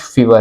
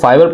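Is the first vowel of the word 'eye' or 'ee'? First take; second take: ee; eye. First: The first vowel sounds like 'ee'. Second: The first vowel sounds like 'eye'. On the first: "और कुछ फीवर" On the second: "कुछ लोग इसको फाइवर पढ़ते हैं"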